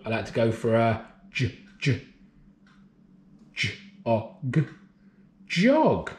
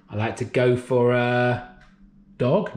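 First: Segment j, o, g then Jog; sounding out words. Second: Said in the usual way. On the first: Shown as a demonstration.

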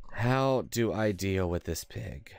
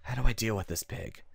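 First: Drawn-out HOW, then word by word; slow, deliberate question. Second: Said in the usual way. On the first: Real, not acted. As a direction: stretch the question out slowly from "How". Repeats the question slowly, deliberately.

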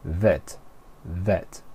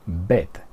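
First: Vet with buzzing lip-on-teeth V; V como F. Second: Vet said with a B, "bet"; pronunciación incorrecta. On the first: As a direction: say vet with an F-like V, not B. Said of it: "como si fuera una, una F". (vet con V inglesa, como una F) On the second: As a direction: say vet as "bet", Spanish-style. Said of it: "no decimos vet". (vet con B española) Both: Shown as a demonstration.

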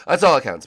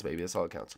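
First: Loud emphatic. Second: Much softer, tossed off low; quiet aside. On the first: Gamer hyping up a friend's verdict, loud and emphatic. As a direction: belt it out, much louder. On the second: Gamer repeating the verdict to himself, softly. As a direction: drop it to a soft murmur. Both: Real, not acted.

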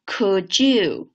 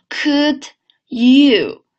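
First: "Could you" merged, d and y blending into a j sound; linked words. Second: "Could", then "you", apart, higher and louder; word by word. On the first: Teacher demonstrating linking to students, words joined. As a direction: say "Could you" as one word, like "could-joo". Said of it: "连起来". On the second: Teacher breaking down the link, word by word. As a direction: keep the d of "Could" separate from "you". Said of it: "我们先分开读". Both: Shown as a demonstration.

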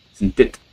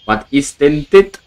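First: Said in the usual way. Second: "dit" drawn out, higher and rising; surprised disbelief. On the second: Real, not acted. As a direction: ask "Was ist denn dit?" slowly, rising on "dit". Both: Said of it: "repeated question".

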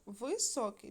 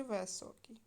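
First: First syllable clearly ВИ in Високий; spelling option with И. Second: First syllable turned to ВЕ in високий; spelling option with Е. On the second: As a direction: say високий as весокий, with open е. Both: Shown as a demonstration. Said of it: "Нам треба вставити літери".

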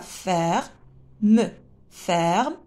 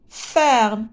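First: "Ferme" broken into fer, pause, me; split into syllables. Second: Said in the usual way. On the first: Shown as a demonstration. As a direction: sound out the final e of "Ferme" as its own beat. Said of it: "On a deux syllabes". (« Ferme » découpé, fer-me)

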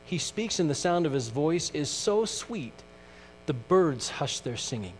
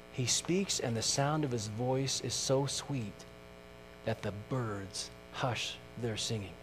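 First: Lifted, lingering hymn-verse reading; reading "He speaks, and the sound of his voice is so sweet" like a cherished hymn. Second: Softer, fading repeat of the verse; repeating "He speaks" softly, dying away to the end. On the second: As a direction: let it sink down quietly, "birds hush their singing" almost hushed. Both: Shown as a demonstration. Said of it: "I like this next verse".

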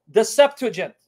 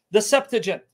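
No difference in how they are said.

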